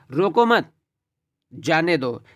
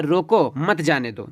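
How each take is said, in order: First: रोको मत joined, long pause, then जाने दो; a clear comma break between मत and जाने; pause after मत. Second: रोको set apart, then मत जाने दो together; a clear comma break between रोको and मत; pause after रोको. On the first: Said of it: "दूसरा अर्थ क्या निकलेगा". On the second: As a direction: say रोको slowly, pause, then run मत जाने दो as one phrase. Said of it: "हल्का कॉमा लगा है". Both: Shown as a demonstration.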